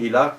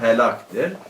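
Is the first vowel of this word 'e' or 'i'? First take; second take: i; e. First: The first vowel is an 'i' sound. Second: The first vowel is an 'e' sound. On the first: This is the Persian reading of the word. "Farsi hilak da okunabilir" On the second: This is the actual reading of the word. "Aslında helaktır"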